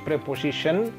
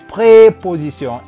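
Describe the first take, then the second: First: It is pronounced with English sounds. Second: It is pronounced with French sounds. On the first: "kalau di bahasa Inggris preposition" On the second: "di bahasa Perancis preposition"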